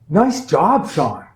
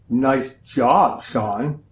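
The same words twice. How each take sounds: First: The tone sounds warm and sincerely praising. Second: The tone sounds deeply sarcastic and mocking. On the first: The work really was good. "one way of saying it is high praise" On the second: The work was actually bad. "The other way of saying it is kind of deep sarcasm"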